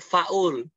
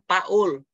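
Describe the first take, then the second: First: The word begins with an f sound. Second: The word begins with a p sound. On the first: The speaker calls it right. "tapi faul gitu" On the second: The speaker calls it wrong. "bukan bukan paul"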